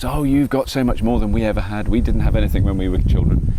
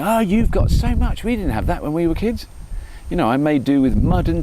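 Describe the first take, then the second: First: Said in the usual way. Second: High-pitched mock parental lament; nagging parent. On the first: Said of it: "all my parents said to me was". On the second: Dad telling his children they have it easy, mock nagging. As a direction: draw it out high, like a parent complaining. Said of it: "all I do with my children is go".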